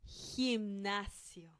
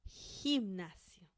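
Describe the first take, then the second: The two takes are said the same way.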